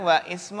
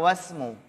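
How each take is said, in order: First: The vowel starting 'ismu' is pronounced separately. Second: The vowel is dropped, joining into one word. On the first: The speaker calls it wrong. "Yang benar wa ismu atau wasmu?" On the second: The speaker calls it right. "Ya, bagus"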